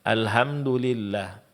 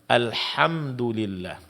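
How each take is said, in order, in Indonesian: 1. Bunyi h ringan, seperti hembusan napas biasa. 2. Bunyi h keras dari tenggorokan. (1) "sering ha di sini berubah menjadi ha" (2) "Yang benar adalah alhamdulillah"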